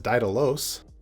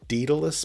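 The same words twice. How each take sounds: First: The name is said in a Greek-style way. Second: The name is said in a British way. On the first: "My limited knowledge of Greek would actually want to pronounce this as" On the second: "perhaps in the U K"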